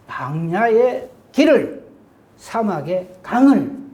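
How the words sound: The words are split by clear, sharp breaks. The speaker calls it right. "딱딱 끊어 읽어야 돼요"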